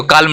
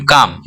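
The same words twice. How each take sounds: First: काल्म with the L voiced before M; sounded L. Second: काम as "kaam", long vowel into M; silent L. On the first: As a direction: say काल्म as "kaal-m". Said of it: "इसको काल्म नहीं बोलते हैं". (काल्म में ल साफ़ बोलें) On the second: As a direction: leave out the L in काम. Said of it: "यहाँ पे एल साइलेंट हो गया". (काम बोलें, ल silent) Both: Shown as a demonstration.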